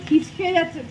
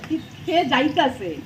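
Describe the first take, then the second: First: The verb has the standard Bengali form. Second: The verb has the Bangal dialect form. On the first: The speaker calls it wrong. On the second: The speaker calls it right.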